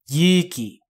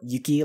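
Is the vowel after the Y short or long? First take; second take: long; short. First: The first vowel is held long. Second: The first vowel is short. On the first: It means courage. The speaker calls it right. "That I is long" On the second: It means snow. The speaker calls it wrong. "if you do a short Yuki like that"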